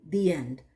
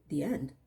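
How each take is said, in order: First: Said in the usual way. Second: Puzzled echo, querying END; incredulous echo. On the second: Retold or imitated. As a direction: END as a baffled question, pitch jumping. Echoes the quote in disbelief.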